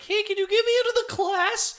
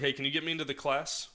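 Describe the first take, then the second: First: The voice cracks like a pubescent boy's. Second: The voice is steady and even.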